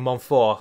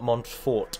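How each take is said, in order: First: The final t sound is silent. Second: The final t sound is pronounced. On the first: The speaker calls it right. "don't pronounce the last letter unless there's a vowel following" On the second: The speaker calls it wrong. "and not"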